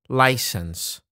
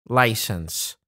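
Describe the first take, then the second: The two takes are said the same way.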